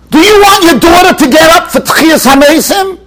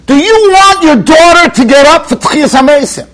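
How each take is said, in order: First: Raised, urgent rebbe question; emphatic question. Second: Said in the usual way. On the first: Retold or imitated. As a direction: push the question hard at him. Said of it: "The Steipler turned to this person and he said". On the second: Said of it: "he says".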